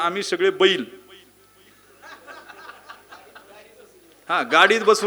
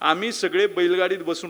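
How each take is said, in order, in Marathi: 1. बैल या शब्दानंतर लगेच विराम आहे. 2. बैल या शब्दानंतर विराम न घेता बोलणे पुढे चालू राहते.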